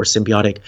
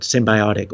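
First: "symbiotic" with bee in the middle; alternate pronunciation. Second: "symbiotic" with bye in the middle; alternate pronunciation. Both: Shown as a demonstration. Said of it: "symbiotic or symbiotic".

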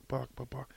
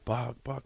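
First: Unvoiced whisper of the name. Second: Said in the usual way. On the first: Shown as a demonstration.

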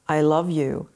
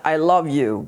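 First: Heartfelt. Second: Said in the usual way. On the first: Shown as a demonstration. Showing how she says it to her son, heartfelt. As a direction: send the love with your voice. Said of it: "I do this with my energy". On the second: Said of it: "I do this with the tone of my voice".

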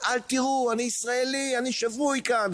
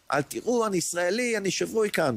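First: צרחה גבוהה ונואשת מתוך הירי; screaming for his life under gunfire; retold scream. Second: צעקה גבוהה בכוחות אחרונים; a high, spent cry with last strength; retold shout again. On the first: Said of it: "בצרחות". (צורח בגבוה ובייאוש) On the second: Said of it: "ואז צעקתי שוב". (צעקה גבוהה ומותשת בכוחות האחרונים)

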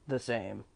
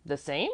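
First: Lower-pitched, toneless short reply; terse gatekeeper. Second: "The same" with rising question tune; puzzled echo. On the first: Trius replies about the master's health, low and terse. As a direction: answer low, giving nothing away. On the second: Apollonie queries Trius's answer, "The same" rising in puzzlement. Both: A narrator's reading.

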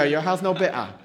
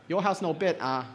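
First: Put-on louder Singaporean accent, echoing Jess. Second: Put-on a light Singaporean accent, mum refusing; mild Singlish mum saying no. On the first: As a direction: repeat it in mild Singlish. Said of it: "See, there you go". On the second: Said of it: "I need a Singaporean to say that".

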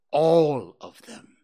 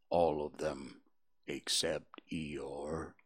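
First: Sulky. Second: Low, slow, soft donkey voice; gloomy Eeyore. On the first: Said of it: "said Owl sulkily". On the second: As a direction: mope through it like a gloomy old donkey. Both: Acted.

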